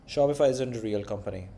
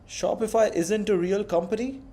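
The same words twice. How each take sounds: First: The voice falls at the end, like a statement. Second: The voice rises at the end, like a question. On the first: It is stated as a fact to be checked. "if you said it as a statement" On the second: It is asked as a question, not stated as fact. "When you ask a question"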